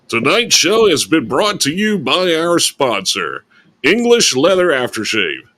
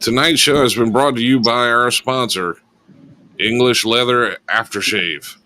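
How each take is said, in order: First: It is read in a put-on announcer voice. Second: It is read in an ordinary speaking voice.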